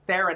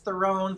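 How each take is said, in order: First: The name rhymes with Sharon. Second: The name does not rhyme with Sharon. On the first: The speaker calls it right. "but it's Theron" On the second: The speaker calls it wrong. "Everybody says Theron"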